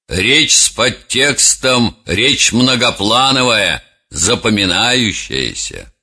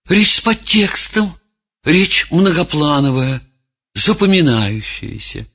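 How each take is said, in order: First: The voice sounds firm and self-assured. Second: The voice sounds unsure and hesitant. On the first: The speaker is sure of themselves. "как бы произнес эту фразу человек, уверенный в себе" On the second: The speaker is lost and unsure of themselves. "другого человека, растерянного"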